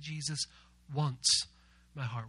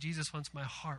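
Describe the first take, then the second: First: The emphasis falls on wants. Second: No word gets special emphasis. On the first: "We're going to put the emphasis on the word once" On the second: "instead of just saying"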